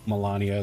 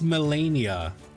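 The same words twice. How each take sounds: First: The first syllable is said with an 'ah' vowel. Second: The first syllable is said with an 'eh' vowel. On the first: The speaker calls it wrong. "Am I saying it wrong?" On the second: The speaker calls it right. "It's M E, not M A"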